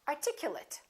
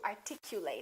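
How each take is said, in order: First: The last syllable is a reduced 'it' sound. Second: The last syllable is a full 'eight' sound. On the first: It is used as an adjective. "if it's a noun or an adjective, we reduce this ate" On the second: It is used as a verb. "if it's a verb, we say ate"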